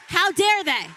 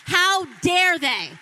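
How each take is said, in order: First: Loud, high second how dare they; outraged repeat. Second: Slow, loud, high how dare they; furious shout. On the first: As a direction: hammer it home again in anger. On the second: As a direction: shout it out in outrage. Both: Real, not acted. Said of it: "I was angry".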